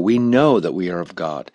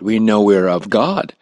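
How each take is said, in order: First: The word know is strongly stressed. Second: The word know is not specially stressed.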